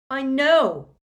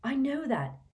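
First: Much higher, much louder bellow of "I know". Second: Said in the usual way. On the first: A narrator's reading. Harry, fed up, cutting everyone off: bellowed "I know". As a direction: shout "I know" to cut them off. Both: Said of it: "Harry bellowed".

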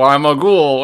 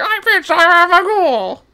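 First: Said in the usual way. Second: High, slow creepy ghoul voice. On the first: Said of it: "Wait, no, it's supposed to be". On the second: Shown as a demonstration. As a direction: sing it out as a silly ghoul. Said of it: "it's supposed to be".

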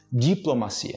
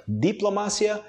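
First: "diplomacia" as jee-plo-ma-SI-a; J-like D, stress on CI in "diplomacia"; Portuguese. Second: Higher "diplomacia", stress on MA; "diplomacia" as di-plo-MA-sya; Spanish. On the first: Teacher separating the languages, Portuguese "diplomacia" stressed on CI. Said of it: "vamos separar os idiomas". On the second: Teacher separating the languages, Spanish "diplomacia" stressed on MA. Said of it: "Em espanhol primeiro". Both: Shown as a demonstration.

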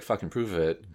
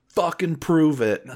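First: Said in the usual way. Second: Loud, slow, laughing heckle; heckling shout. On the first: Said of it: "the same guy who was like". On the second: Retold or imitated. Firefighter in the back daring the actor, loud heckle. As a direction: yell it from the back of the room as a dare.

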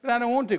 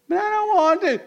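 First: Put-on mild whiny kid refusal; a child pleading lightly; child whining. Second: High, loud whine on "don't"; a kid wailing "don't" in a high, loud voice; child whining. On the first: Child refusing a parent, a mild hint of a whine. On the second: Retold or imitated. Child refusing a parent again, a high, loud wail. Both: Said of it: "And they say".

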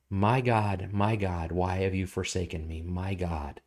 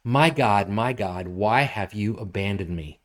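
First: Much softer, sinking to a near hush; hushed cry. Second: Scripture reading. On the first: Pastor echoing David's cry softly, fading away. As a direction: let the cry fade into anguish. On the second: Pastor reading the psalm aloud to the congregation. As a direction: read out as a full-voiced psalm. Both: Acted.

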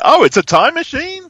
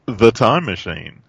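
First: Much higher, louder, rising in surprise; sudden penny-drop disbelief at it being a time machine; a jump up in pitch and volume on "Oh", rising at the end; surprised realization. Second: Said in the usual way. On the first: Retold or imitated. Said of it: "And I was like". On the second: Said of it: "And they said".

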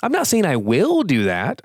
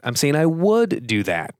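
First: "not" lifted with a rise, "will" clear; stress on NOT and WILL. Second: "would" leaned on and lengthened, falling; stress on WOULD. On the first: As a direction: contrast "will" against "would". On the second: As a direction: press on "would" to show it's only possible. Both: Shown as a demonstration. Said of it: "Notice the difference?".

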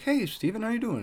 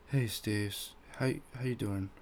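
First: High, sing-out hello; friendly greeting. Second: Soft, halting, sheepish hello; awkwardly embarrassed. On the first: Boss greeting former employee in the aisles, friendly. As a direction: imitate a boss's cheery high-pitched hello. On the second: Coworker greeting the man he insulted, awkwardly embarrassed. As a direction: get the greeting out quietly, stumbling a little. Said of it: "he's awkwardly embarrassed or whatever". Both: Retold or imitated.

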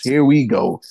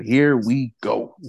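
First: Said in the usual way. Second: Slow, drawn-out villain line; a lightly voiced Joker tease; Heath Ledger. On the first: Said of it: "is what I said". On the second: Shown as a demonstration. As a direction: drag it out like a movie villain. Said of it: "I need that soundbite. Heath Ledger".

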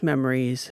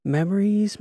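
First: Said in the usual way. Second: High, lifted first memories; L remembers old times, high lifted memories; wistful sigh. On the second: A narrator's reading. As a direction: sing out the first word fondly.

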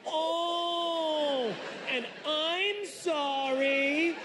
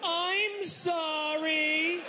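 First: High, slow, stretched "Oh, and I'm sorry"; yelled apology. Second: Very high, very slow, stretched-out "I'm sorry"; yelled apology. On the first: Recounting what the doctor heard, a high drawn-out yell. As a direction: drag the apology out in a high wail. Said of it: "he's had to deal with". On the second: Apologizing to the doctor mid-exam, a high drawn-out yell. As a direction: wail the apology, dragging every sound. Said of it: "So I yelled". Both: Retold or imitated.

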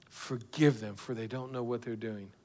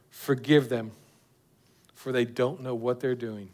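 First: Much softer, near-whispered repeat; hushed echo. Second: Soft, lower prayer of Jesus; tender prayer. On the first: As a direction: let the prayer fade into a hush. Repeated prayer, falling to hush. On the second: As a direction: plead gently for them. Preacher voices Jesus' prayer. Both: Acted.

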